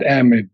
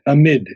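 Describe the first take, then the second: First: The stress is on the first syllable. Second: The stress is on the second syllable. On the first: The speaker calls it wrong. "not amid" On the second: The speaker calls it right. "but amid. The, on the second syllable"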